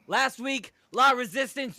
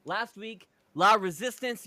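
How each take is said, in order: First: High, loud pumped-up promo delivery; wrestler promo voice. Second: Said in the usual way. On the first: Shown as a demonstration. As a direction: restart it as a big wrestling promo. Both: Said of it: "hold on".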